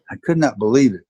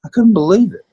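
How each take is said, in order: First: "could not" spelled out, "not" leaned on firmly; same words again but calmer and emphatic; stress on not. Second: High, loud burst of real disbelief; the memory still astonishes you, let it jump out; recalling how teammates taught him; amazed disbelief. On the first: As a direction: settle back down and weigh "not". Repeats disbelief, settling down. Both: Real, not acted.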